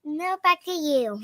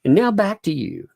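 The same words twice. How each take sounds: First: Slow child's imitation of a sign-off; cute correspondent. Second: Higher, mock correspondent sign-off; cute correspondent. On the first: Kid echoing parent as cute correspondent, slow and careful. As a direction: copy the reporter line, drawn out. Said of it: "I'll leave you to the cute voice". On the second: Parent modeling correspondent line for kid, higher cutesy sign-off. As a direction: hand back like a cute reporter. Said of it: "Can you be like". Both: Shown as a demonstration.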